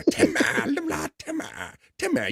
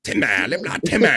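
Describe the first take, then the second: First: High strained Timmy yell. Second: Lightly voiced Timmy shout; a hint of Timmy from South Park. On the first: Retold or imitated. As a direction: squeal it like Timmy. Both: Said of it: "trying to get me to do Timmy".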